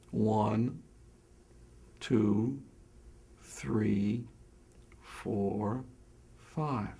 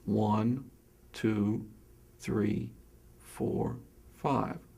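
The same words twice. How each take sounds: First: The counting is slower, with longer gaps. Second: The counting is at a normal pace.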